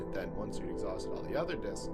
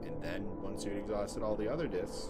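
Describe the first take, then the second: First: It runs on with no pause after "then". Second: There is a short pause after "then".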